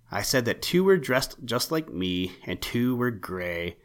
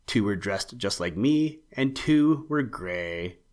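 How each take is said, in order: First: A touch impatient, repeating himself; mildly sharp repeat. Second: Said in the usual way. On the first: Acted. Owl repeating himself to puzzled rabbit, mildly sharp. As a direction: say it again with slight irritation. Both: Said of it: "replied Spooky rather sharply".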